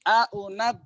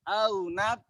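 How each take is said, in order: First: The glottal stop is pronounced fully and clearly. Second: The glottal stop is softened, blending into the vowel. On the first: "ini tahqiq" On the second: "ketika dihasil"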